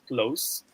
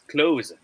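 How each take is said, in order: First: It is said with the adjective pronunciation. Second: It is said with the verb pronunciation. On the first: It describes something as near. "give us a smiley face if it is pronounced as close" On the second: It names the action of shutting. "the pronunciation of this word, if it is in the verb, is close"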